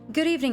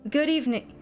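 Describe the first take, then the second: First: It is said in a higher voice. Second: It is said in a lower voice.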